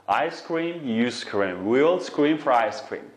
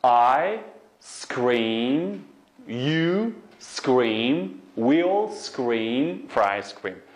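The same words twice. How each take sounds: First: Connected, faster run-through; tongue twister at speed; quicker demonstration. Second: Very slow, drawn-out rising words; word-by-word teaching pace; slow demonstration. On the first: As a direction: run the words together as one line. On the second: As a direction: stretch each word for the learners. Teacher models tongue twister slowly. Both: Shown as a demonstration.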